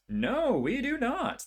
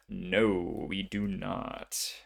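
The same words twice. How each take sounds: First: High, drawn-out dismay. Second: Slow, let-down admission; deflated, drawn-out delivery; resigned. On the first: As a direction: pitch leaps up on a slow, exasperated no. Second failed roll, louder dismay. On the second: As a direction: draw it out in mild disappointment. Failed roll, resigned reaction. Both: Real, not acted.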